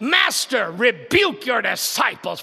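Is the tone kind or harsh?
harsh. It is said in a harsh, scolding tone.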